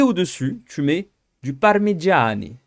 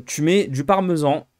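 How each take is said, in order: First: Slow hammed-up Italian accent on parmigiani. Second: Said in the usual way. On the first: Giving his moussaka recipe to viewers, playful mock Italian accent. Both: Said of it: "pourquoi je prends un accent italien".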